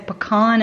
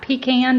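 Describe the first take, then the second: First: The first syllable does not sound like 'pea'. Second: The first syllable sounds like 'pea'. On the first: The speaker calls it right. "we say pecan" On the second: The speaker calls it wrong. "not pecan because peas belong in a can"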